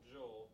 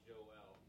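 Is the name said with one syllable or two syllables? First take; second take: one; two. First: The name is said as one syllable. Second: The name is said as two syllables. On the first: "my traditional Joel" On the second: "in the Hebrew it's probably more accurately Joel, two syllables"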